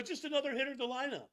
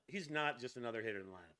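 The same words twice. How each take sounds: First: High, fast mocking echo; mock dismissive. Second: Said in the usual way. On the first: Host parroting pitcher's line about Shohei, mock dismissive. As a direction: toss it off in a higher, hurried mock voice.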